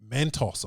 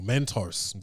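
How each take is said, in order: First: It is said in a non-American pronunciation. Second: It is said in an American pronunciation.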